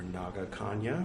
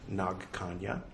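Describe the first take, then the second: First: The first word ends with a vowel after g. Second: The first word ends without a vowel after g. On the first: The speaker calls it wrong. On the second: The speaker calls it right.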